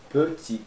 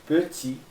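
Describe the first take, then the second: Both takes have the same delivery.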